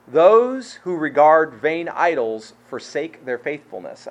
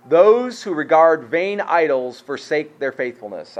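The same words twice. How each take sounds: First: Very slow, stressing THOSE; emphatic solemn reread; slower, weightier reread. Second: Slow, weighty reading of the verse; deliberate solemn reading; slow scripture reading. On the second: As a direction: read it slowly, letting each word land. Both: Shown as a demonstration. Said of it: "Listen to it again".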